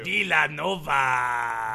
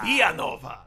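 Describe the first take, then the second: First: Long drawn-out scratchy Villanova; slow scratchy shout. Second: Villanova in a Hispanic accent; short Hispanic-accented call. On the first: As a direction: drag the name out in a scratchy holler. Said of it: "doing a scratchy voice". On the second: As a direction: correct it with a Spanish-style accent. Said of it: "clearly an Hispanic accent". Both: Shown as a demonstration.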